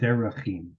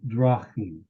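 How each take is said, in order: First: A clear vowel is heard after d. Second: The vowel after d is nearly silent. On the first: "instead of derachim" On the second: "which makes it drachim"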